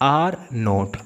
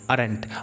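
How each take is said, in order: First: The two words are said separately and fully. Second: The two words are merged into one syllable group.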